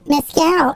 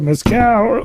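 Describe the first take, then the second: First: It is said in a put-on voice. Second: It is said in his normal voice.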